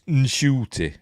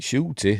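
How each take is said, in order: First: The name starts with an n before sh. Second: The name starts straight with a sh sound. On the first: The speaker calls it right. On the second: The speaker calls it wrong.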